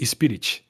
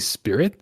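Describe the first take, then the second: First: It is said with a Brazilian Portuguese pronunciation. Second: It is said with an English pronunciation. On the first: "with the Brazilian Portuguese accent, ... I would say spirit" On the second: "I wouldn't say spirit"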